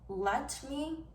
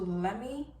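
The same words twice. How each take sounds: First: Both words are said clearly and separately. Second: The words are run together into one slurred word. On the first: The speaker calls it right. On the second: The speaker calls it wrong.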